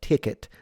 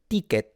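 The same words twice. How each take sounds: First: The first T has a puff of air. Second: The first T has no puff of air. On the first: "that is a good example" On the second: "the way I would pronounce it is ticket"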